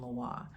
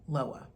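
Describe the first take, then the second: First: It is pronounced the Haitian Creole way. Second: It is pronounced the English way, from the spelling. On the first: The speaker calls it right. "but it is pronounced Haitian Loa" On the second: The speaker calls it wrong. "To an English speaker, I could see that looks like Loa"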